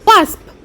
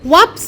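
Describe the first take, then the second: First: The word ends with an s then p sound. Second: The word ends with a p then s sound. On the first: The speaker calls it right. "উচ্চারণটা ভালো করে শোনো" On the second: The speaker calls it wrong. "অনেকেই এটা ওয়াপস বলে"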